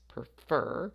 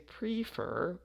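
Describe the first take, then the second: First: The stress is on the second syllable. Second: The stress is on the first syllable. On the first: The speaker calls it right. "so we stress that last" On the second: The speaker calls it wrong. "we don't say prefer"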